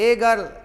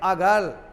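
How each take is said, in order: First: The article is a full, stressed 'ay' sound. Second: The article is a short, weak 'uh' sound. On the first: "जोर देकर बोलेंगे तो" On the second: "वीक sound में बोलेंगे"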